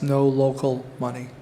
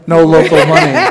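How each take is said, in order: First: It is said at a normal speaking volume. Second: It is said louder than normal speech.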